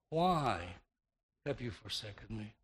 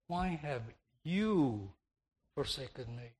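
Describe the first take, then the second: First: The word "why" carries the main stress. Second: The word "you" carries the main stress. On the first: The question is about the reason for being forsaken. "The emphasis then would have been upon the reason behind the Savior's God-forsaken condition, on the why" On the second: It is shocking that God of all persons did it. "shifting the emphasis to the pronoun"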